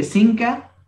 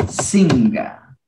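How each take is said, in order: First: Singa said as "sinka", with a K; spelled form. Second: Singa drawn out with a voiced G; spoken form. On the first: Teacher shows the written form of singa, pronounced with a K. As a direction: say "singa" with K in place of G. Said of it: "Se escribe singa". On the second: Teacher shows how singa is really pronounced, slow, with a G. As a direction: say "singa" slowly, ringing the NG. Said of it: "pero se pronuncia singa". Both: Shown as a demonstration.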